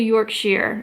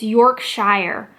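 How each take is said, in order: First: The ending sounds like 'sheer', rhyming with 'here'. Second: The ending sounds like 'shire', rhyming with 'fire'. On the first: The speaker calls it right. "but it's actually Yorkshire" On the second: The speaker calls it wrong. "my brain is telling me it's Yorkshire"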